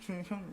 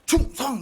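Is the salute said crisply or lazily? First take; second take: lazily; crisply. First: It is said casually and lazily. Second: It is said crisply and sharply.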